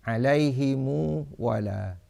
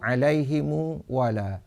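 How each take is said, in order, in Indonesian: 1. Ha bervokal i; mim ditambah u. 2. Ha bervokal i; mim ditambah u.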